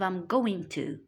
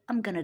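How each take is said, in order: First: 'Going to' is said in full. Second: 'Going to' is reduced to 'gonna'. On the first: "instead of I'm going to" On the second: "we have gonna instead of going to"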